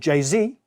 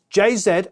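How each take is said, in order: First: Z is said the American way. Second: Z is said the British way.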